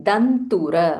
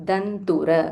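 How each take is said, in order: The two takes are said the same way.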